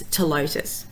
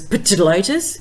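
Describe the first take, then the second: First: The initial P sound is silent. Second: The initial P sound is pronounced. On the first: The speaker calls it right. "you don't say the P" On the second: The speaker calls it wrong. "might be look like it should be pronounced as Ptilotus"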